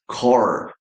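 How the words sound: The R at the end is clearly pronounced. "American English? It has r sounds used a lot"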